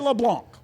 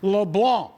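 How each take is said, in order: First: The C at the end is pronounced hard. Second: The C at the end is silent. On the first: The speaker calls it wrong. "We don't say" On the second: The speaker calls it right. "that is a silent C, not a hard C"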